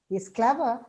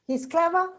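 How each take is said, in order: First: The pitch falls and then rises. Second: The pitch rises at the end. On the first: Something negative is implied but left unsaid. "with a fall rise, you understand it" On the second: It is a question. "it becomes a question"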